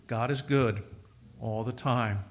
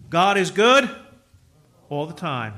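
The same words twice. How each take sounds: First: God is good said low and soft; hushed, settled affirmation; quiet refrain. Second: God is good called out louder; loud refrain. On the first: Same refrain, softly. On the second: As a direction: proclaim it to the congregation. Congregational refrain. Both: Real, not acted.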